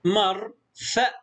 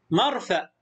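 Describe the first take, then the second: First: مرفأ slowly, as "mar ... fa"; split into syllables. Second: Said in the usual way. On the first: Shown as a demonstration. Teacher sounds out a new word, syllable by syllable. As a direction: pause inside مرفأ after "mar". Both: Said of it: "مقطع ساكن".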